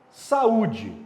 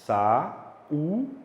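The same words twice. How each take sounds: First: Said in the usual way. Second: "Sa-u-de" in three separate beats; "Sa-u-de" with U standing alone; syllable by syllable. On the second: Shown as a demonstration. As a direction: break "Sa-u-de" apart, pausing after each syllable. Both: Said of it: "Como é que você fala?".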